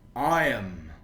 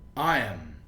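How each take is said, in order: First: The words are joined into one syllable. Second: The words are joined into one syllable.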